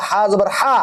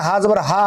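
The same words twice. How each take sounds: First: হা with rough friction in the throat; হা জবর হা as Arabic throaty h; rasping ha. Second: হা as a light breath-like h; হা জবর হা without throat friction; soft ha. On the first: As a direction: rasp the h of হা. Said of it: "এটা হলো খসখসা". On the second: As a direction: say হা with an easy, open h. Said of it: "হা আর হা দুটার মাঝে পার্থক্য আছে". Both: Shown as a demonstration.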